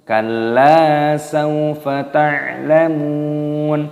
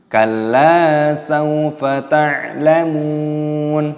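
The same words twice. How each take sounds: The two takes are said the same way.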